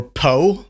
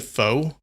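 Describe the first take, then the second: First: "po" for pho, with a hard P; alternate pronunciation. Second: "pho" said like "foe"; alternate pronunciation. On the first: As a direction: say "po" loudly, rhyming with "go". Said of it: "some people pronounce it". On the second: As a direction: say "pho" with a long O, rhyming with "go". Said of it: "some people pronounce it pho". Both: Shown as a demonstration.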